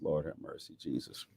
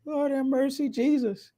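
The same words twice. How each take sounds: First: Much softer and lower Lord have mercy; hushed aside. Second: Much higher, squeaky Lord have mercy; squealed exclamation. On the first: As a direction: breathe it out under your breath. Hushed aside after baby talk. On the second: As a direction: yelp it in falsetto, amused and amazed. Laughing at the passage. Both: Real, not acted.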